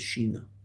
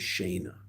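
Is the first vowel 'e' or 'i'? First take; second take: i; e. First: The first vowel sounds like 'i'. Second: The first vowel sounds like 'e'. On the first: This is the form used in the discourse being studied. "but the Rebbe says shina" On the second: This is the common everyday Hebrew form. "the word in Hebrew is shena"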